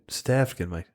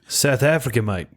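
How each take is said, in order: First: A lighter, quieter South African accent that trails off at the end; half-hearted South African accent, tailing off; South African accent again. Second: Put-on a light stab at a South African accent that slides toward Australian; mild mock South African accent, slightly raised. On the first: Shown as a demonstration. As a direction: repeat the South African line more softly, checking if it is right. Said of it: "I'm pretty sure that's what they say".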